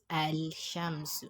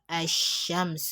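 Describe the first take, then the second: First: The article's l sound is clearly pronounced. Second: The l is dropped and the sh is doubled. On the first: The speaker calls it wrong. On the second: The speaker calls it right.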